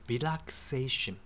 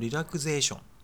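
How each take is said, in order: First: The middle consonant is an unvoiced s sound. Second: The middle consonant is a voiced z sound. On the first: The speaker calls it right. "濁らないんですね" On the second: The speaker calls it wrong. "正しいと思ってる人多いかもしれませんけども"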